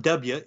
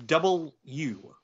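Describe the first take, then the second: First: "W" said the wrong way, as the full letter name. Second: "W" said the approved radio way, in two words; right way to say W. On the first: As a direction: say "W" as the full letter the way you shouldn't. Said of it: "you don't say W". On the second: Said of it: "It's not W". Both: Shown as a demonstration.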